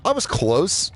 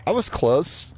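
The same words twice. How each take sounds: The two takes are said the same way.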